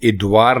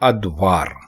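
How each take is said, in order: First: The word begins with an 'i' vowel. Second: The word begins with an 'a' vowel. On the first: The speaker calls it wrong. "इद्वार लिखना या बोलना बिल्कुल गलत है" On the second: The speaker calls it right. "दुरुस्त होगा अद्वार"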